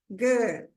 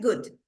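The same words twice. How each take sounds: First: The vowel is stretched out long. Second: The vowel is short. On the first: The speaker calls it right. "Ele é esticado" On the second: The speaker calls it wrong. "não é good"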